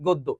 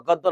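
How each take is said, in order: First: "গদ্য" as goddo; goddo, the standard way to say "গদ্য"; correct closed vowel. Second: "গদ্য" as gawddo; gawddo, the rejected way to say "গদ্য"; wrong open vowel. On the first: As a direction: give "গদ্য" a round closed o. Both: Shown as a demonstration. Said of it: "গদ্য না, গদ্য".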